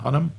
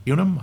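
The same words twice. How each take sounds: First: Hunnam said with a short U, "HUN-um"; pronounced HUN-um. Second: Hunnam said with a Y-glide, "HYOO-num"; pronounced HYOO-num. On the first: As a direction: try Hunnam as "HUN-um", questioning. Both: Shown as a demonstration. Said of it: "not sure if I'm pronouncing his name right".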